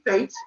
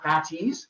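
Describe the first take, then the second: First: The word is said with one syllable. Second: The word is said with two syllables. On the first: The speaker calls it right. "I'm sure they're not called the Fatties" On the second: The speaker calls it wrong. "or even I've heard the Fatties"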